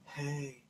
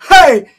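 First: It is said weakly, without force. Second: It is shouted with strong force.

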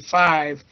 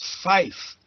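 First: The word ends with a v sound. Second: The word ends with an f sound. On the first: The speaker calls it wrong. "If you just say five, it can be lost in background hash" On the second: The speaker calls it right. "Five is fife, because the V often is lost"

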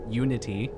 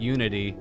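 First: The middle consonant is a clear t. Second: The middle consonant sounds like a d. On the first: The speaker calls it right. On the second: The speaker calls it wrong.

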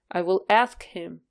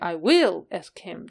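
First: The stress falls on the word ask. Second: The stress falls on the word will. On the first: The speaker calls it right. "stress был бы на него" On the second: The speaker calls it wrong. "Мы бы не говорили I will ask him"

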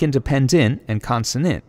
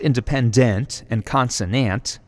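First: The endings share the same reduced vowel. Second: The endings have distinct full vowels. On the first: The speaker calls it right. "It's more like" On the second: The speaker calls it wrong. "It's not pronounced"

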